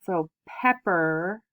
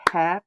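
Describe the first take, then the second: First: Said in the usual way. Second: "pepper" said in two clapped beats, pep-per; clapped syllables. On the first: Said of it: "if we clap it out". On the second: Shown as a demonstration. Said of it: "if we clap it out, says".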